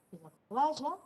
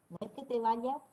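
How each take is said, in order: First: Vaya dicho baʒa, más alto; ye rehilada. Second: Said in the usual way. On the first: Shown as a demonstration. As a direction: vaya con ye sonora. (vaya como baʒa)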